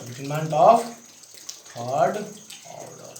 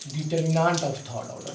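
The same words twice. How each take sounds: First: Determinant of, third, order each split by pauses; dictation pauses. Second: Determinant of third order said slowly in one breath; name the term slowly for the class; slow clear term. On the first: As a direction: dictate it piece by piece for note-taking. (रुक-रुक कर लिखवाना) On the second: (धीमे, साफ़ बोला गया शब्द) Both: Shown as a demonstration. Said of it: "तो इसको क्या बोलते हैं बाबू?".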